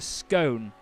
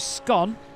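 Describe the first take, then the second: First: The vowel rhymes with 'cone'. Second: The vowel rhymes with 'on'. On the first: The speaker calls it right. "It's a scone because it's S C O N E" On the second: The speaker calls it wrong. "if it was scone, it would be S C O N"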